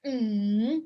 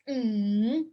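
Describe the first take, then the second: First: The pitch dips down and then rises. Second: The pitch dips down and then rises.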